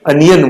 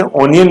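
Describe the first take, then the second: First: "अनियन" opening on a short uh; correct pronunciation. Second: "ओनियन" with a long O first; mispronunciation demo. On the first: Teacher summing up the right onion, uh pronunciation. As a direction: say "अनियन" as uh-ni-yan. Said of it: "अनियन बोलेंगे". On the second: Teacher summing up the wrong onion, O-sound mispronounced. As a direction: say "ओनियन" as oh-ni-yan. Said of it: "ओनियन नहीं बोलेंगे". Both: Shown as a demonstration.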